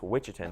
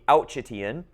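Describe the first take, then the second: First: The word begins with a 'wih' sound. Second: The word begins with an 'ooh' sound. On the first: The speaker calls it right. "It's Wichitan, though" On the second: The speaker calls it wrong. "I know it looks like to be Ouchitian"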